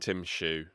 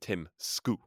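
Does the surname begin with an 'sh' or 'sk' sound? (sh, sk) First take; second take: sh; sk. First: The surname begins with an 'sh' sound. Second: The surname begins with an 'sk' sound. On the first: This is the English speakers' version of the name. "we call him Tim Shu" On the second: This is the native Danish version of the name. "which is apparently the correct Danish pronunciation"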